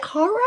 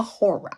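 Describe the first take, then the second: First: First "horror" as "HAH-ruh"; East Coast horror. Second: Second "horror" as "HOR-uh"; rounded "or" vowel in "horror"; own horror. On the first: Teacher asking which is right, "HAH-ruh" pronunciation. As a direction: open "ah" vowel in "horror". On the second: Teacher asking which is right, "HOR-uh" pronunciation. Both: Shown as a demonstration. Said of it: "Is it horror or horror?".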